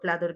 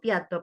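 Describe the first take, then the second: First: A clear l sound follows the p. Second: The l is replaced by an i sound. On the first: The speaker calls it right. "diga plato" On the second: The speaker calls it wrong. "en vez de decir piato"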